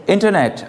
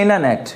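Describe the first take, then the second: First: इंटरनेट in a British accent, crisp t after the n. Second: इंटरनेट in an American accent, first t dropped as in innernet. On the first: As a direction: say इंटरनेट the British way, every t clear. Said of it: "Britishers बोल सकते हैं इंटरनेट". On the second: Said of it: "American बोल सकते हैं इंटरनेट". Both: Shown as a demonstration.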